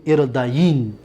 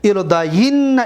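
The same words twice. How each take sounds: First: ارداین ending on a lone n, pitched lower; light emphatic nun. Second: ارداین with long doubled n and final a; heavy emphatic nun. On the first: Teacher reciting light-nun forms, ارداین said as irdayin. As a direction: let ارداین drop and close on "-yin". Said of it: "با نون خفیفه". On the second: Teacher reciting heavy-nun forms, ارداین ending in -yinna. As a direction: say ارداین as "irdayinna", holding the n. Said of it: "با نون توکید ثقیله". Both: Shown as a demonstration.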